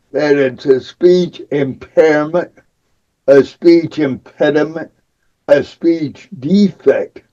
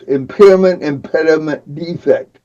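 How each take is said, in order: First: Said in the usual way. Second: Impairment, impediment, defect each said alone with a pause after it; each word set apart. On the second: Shown as a demonstration. Speaker singling out labels for his speech, each word set apart. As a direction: weigh impairment, then impediment, then defect, one at a time and falling away. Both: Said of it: "Think about those three words".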